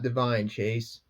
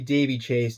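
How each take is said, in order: First: The first name ends with a 'vine' sound. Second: The first name ends with a long 'ee' sound. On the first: The speaker calls it wrong. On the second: The speaker calls it right. "It's actually"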